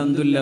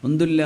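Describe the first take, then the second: Both takes have the same delivery.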